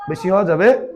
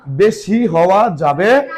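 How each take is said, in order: First: Said in the usual way. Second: বেশি হওয়া যাবে drawn out slowly, rising on যাবে; slow stressed warning. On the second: Shown as a demonstration. Teacher warning pupils the answer must not exceed, slow stress. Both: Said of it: "বেশি হওয়া যাবে না".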